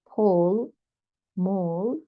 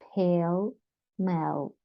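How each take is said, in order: First: The vowels sound like the vowel in 'all'. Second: The vowels sound like the vowel in 'el'. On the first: The speaker calls it wrong. "Had to tell why it's Paul mall" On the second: The speaker calls it right. "but pale mel"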